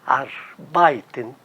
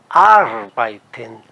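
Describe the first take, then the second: First: The stress is on the second syllable. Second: The stress is on the first syllable. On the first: The speaker calls it wrong. "os brasileiros eh, têm a tendência em pronunciar" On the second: The speaker calls it right. "a sílaba tônica seja, esteja na primeira sílaba"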